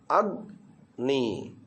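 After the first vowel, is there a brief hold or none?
hold. A brief catch holds the first syllable before moving on. The speaker calls it right.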